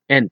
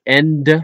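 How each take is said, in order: First: The word ends with a t sound. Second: The word ends with a d sound. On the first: "Someone with a heave Dutch accent may pronounce those words like" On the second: "indicating that the word ends with a D"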